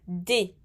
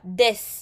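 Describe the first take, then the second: First: The final S is silent, ending in an "ay" sound. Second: The final S is pronounced aloud. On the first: The speaker calls it right. "C'est des avec le son et" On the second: The speaker calls it wrong. "Je ne dis pas des. Non, c'est pas bon"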